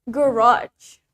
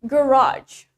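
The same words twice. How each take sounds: First: The stress is on the second syllable. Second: The stress is on the second syllable.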